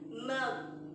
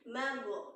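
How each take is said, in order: First: The final consonant stops cleanly without echo. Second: The final consonant bounces with an echo vowel. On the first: The speaker calls it right. "go sukun itu bacanya G aja" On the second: The speaker calls it wrong. "tidak bisa dipantulkan menjadi mago"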